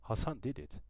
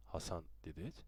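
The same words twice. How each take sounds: First: High, falling Hassan did it with DID stressed; a scared boy points the finger; child's blurted accusation. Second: Quiet Hassan did it? rising on it; father checks the boy's claim, doubting; father's doubtful question. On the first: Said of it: "I said". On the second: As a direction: ask Hassan did it? softly, tune rising at the end. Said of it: "Father said". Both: A narrator's reading.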